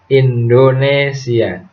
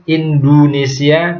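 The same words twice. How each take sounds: First: The word is articulated clearly and precisely. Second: The word is articulated sloppily in another way. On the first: The speaker calls it right. "tapi Indonesia" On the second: The speaker calls it wrong. "atau Indonesia dan sebagainya"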